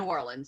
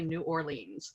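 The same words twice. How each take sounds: First: The name is run together like one word. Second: The name is said as separate distinct words. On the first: The speaker calls it right. "like one word" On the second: The speaker calls it wrong. "we don't say New Orleans"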